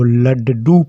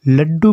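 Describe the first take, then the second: First: The middle consonant is a separate full syllable. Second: The middle consonant is doubled without a vowel. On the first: "अगर यह डा के नीचे हलंत का चिन्ह नहीं होता तो हम इसको लड्डू पढ़ते" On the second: "इसका मतलब यह आधा डा है"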